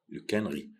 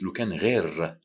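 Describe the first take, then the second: First: The last word ends without an r sound. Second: The last word ends with an r sound. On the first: "ce sera plus facile pour vous, les gens qui sont francophones, de dire لو كان غي" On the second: "Il y a certains qui disent لو كان غير"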